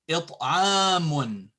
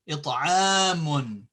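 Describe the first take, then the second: The two takes are said the same way.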